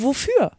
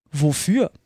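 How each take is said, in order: First: "wofür" pitched high, then falling; emphatic correction. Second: Said in the usual way. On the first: A narrator's reading. Alice wiederholt ihre Frage betont. ("wofür" hoch betont, dann fallend)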